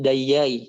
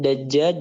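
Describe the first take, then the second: First: The doubled consonant is a y sound. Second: The doubled consonant is a j sound.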